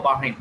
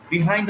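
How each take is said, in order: First: "behind" with a "buh" first syllable; American pronunciation. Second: "behind" with a short "bi" first syllable; British pronunciation. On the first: Teacher offering both correct forms, "behind" said buh-HIND. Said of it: "American pronunciation". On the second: Teacher offering both correct forms, "behind" said bi-HIND. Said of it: "British pronunciation". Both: Shown as a demonstration.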